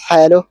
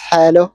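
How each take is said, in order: The two takes are said the same way.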